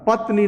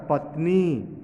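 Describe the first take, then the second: First: पत्नी wrongly said with a short "ni"; short final vowel. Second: पत्नी with a long-held "nee"; long final vowel. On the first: Teacher rejecting the wrong reading, short final vowel. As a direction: punch पत्नी out quickly, ending short. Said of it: "पत्नी नहीं होता". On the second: Teacher giving the correct word, long final vowel. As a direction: draw out the last vowel of पत्नी. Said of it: "न पर बड़ी की मात्रा होगा". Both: Shown as a demonstration.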